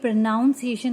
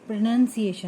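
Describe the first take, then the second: First: The second syllable sounds like 'nown'. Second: The second syllable sounds like 'nun'. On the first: The speaker calls it wrong. "तो ये प्रोनाउंसिएशन नहीं है" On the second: The speaker calls it right. "प्रोनाउंसिएशन है।"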